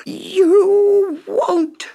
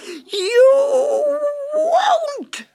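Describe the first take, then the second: First: Shrill, very high furious shriek; screaming witch. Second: Even higher, crying shriek of rage; wild witch scream. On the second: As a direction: let the scream break into a wail. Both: A narrator's reading. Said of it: "screamed the witch".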